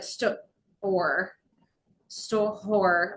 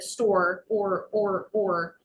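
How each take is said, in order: First: The word breaks off partway, then restarts. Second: The final sound of the word is repeated. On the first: "in the middle of a word" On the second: "a disfluency at the end of a word"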